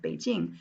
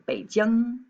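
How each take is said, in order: First: Said in the usual way. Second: Beijing said slowly with Mandarin tones, Bei falling-rising then jing high and level; correct Mandarin Beijing. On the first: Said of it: "you should say Beijing". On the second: Shown as a demonstration. Teacher models Beijing for students, slow Mandarin tones. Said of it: "when you're pronouncing the capital of Beijing".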